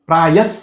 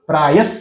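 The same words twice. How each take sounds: No difference in how they are said.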